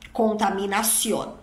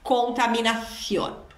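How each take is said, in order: First: The c before i sounds like s. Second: The c before i sounds like th. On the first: "C e C I com som de dois S" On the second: "como se fosse um sopro"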